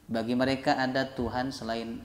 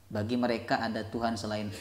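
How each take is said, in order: The two takes are said the same way.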